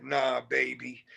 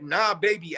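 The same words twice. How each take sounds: First: Slow, soft and suggestive; a slow, softer playful come-on. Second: Joking. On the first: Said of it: "being suggestive, playing around". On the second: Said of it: "as a joke". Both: Retold or imitated.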